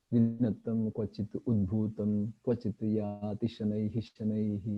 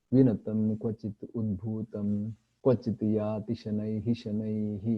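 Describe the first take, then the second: Both takes have the same delivery.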